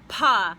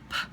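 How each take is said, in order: First: A louder p followed by a short vowel. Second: A quiet p with no vowel after it. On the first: The speaker calls it wrong. "they say pa to get their voice to come out" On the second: The speaker calls it right. "letter P is a very quiet sound and you say P"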